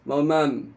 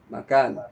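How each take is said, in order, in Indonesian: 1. Bunyi k hilang dari kata makan. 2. Bunyi k terdengar jelas dalam kata makan. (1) "k-nya hilang" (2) "Kemudian akhirnya makan"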